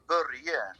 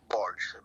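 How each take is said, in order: First: The name is said the Swedish way. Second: The name is said the American way.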